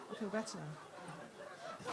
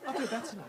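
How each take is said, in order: First: Low, very soft, drawn-out; soothed and hushed. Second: Said in the usual way. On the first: Acted. Comic settling after her deli outburst, hushed relief. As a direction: sink into a slow, quiet calm.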